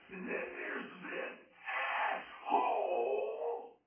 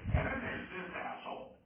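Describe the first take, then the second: First: It is said forcefully and harshly. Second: It is said softly and mildly.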